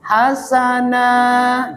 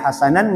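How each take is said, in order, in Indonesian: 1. Kata ini berakhir dengan vokal panjang. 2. Kata ini berakhir dengan bunyi n. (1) "Suara tanwinnya diganti huruf mat" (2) "tidak boleh dibaca hasanan"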